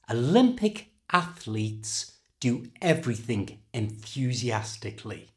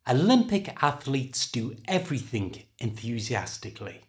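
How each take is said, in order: First: The sentence is said slowly and carefully. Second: The sentence is said at a normal speed.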